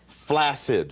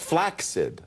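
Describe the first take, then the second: First: The double c sounds like a plain s. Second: The double c sounds like ks. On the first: The speaker calls it wrong. "is not the way to pronounce that word" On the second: The speaker calls it right. "like access or success"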